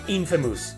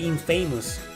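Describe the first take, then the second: First: The ending is reduced, unlike the word famous. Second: The ending sounds like the word famous. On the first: The speaker calls it right. "It's pronounced Infamous" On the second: The speaker calls it wrong. "I used to say Infamous"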